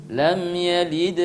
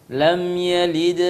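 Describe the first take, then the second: Both takes have the same delivery.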